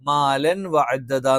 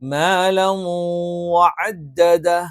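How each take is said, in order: First: The n is pronounced clearly before the w. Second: The n merges nasally into the following w. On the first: The speaker calls it wrong. "എന്ന് പറയാൻ പാടില്ല, അത് തെറ്റാണ്" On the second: The speaker calls it right. "മണിച്ചിട്ട് നമ്മൾ അങ്ങ് ചേർത്ത് ഓതും"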